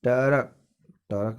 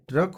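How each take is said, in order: First: टरक in two beats, "ta-rak"; split tr cluster. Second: Said in the usual way. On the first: Shown as a demonstration. Teacher showing the wrong form, टरक said as "ta-rak". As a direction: put a vowel between t and r in टरक. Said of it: "नहीं होता है". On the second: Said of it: "ट्रक होता है".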